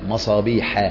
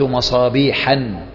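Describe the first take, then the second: First: The word ends without an added n sound. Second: The word ends with an added n sound. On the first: The speaker calls it right. "لا" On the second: The speaker calls it wrong. "ما تقول مصابيحا أوقدت مصابيحا"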